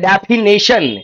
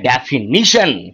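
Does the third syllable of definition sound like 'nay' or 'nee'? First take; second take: nay; nee. First: The third syllable sounds like 'nay', as in nation. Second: The third syllable sounds like 'nee' before 'shun'. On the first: The speaker calls it wrong. "आप कई बार शब्दों का उच्चारण गलत करते हैं, आप बोल देते हैं डेफिनेशन, भाई नेशन नहीं होता" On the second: The speaker calls it right. "नीशन होता है"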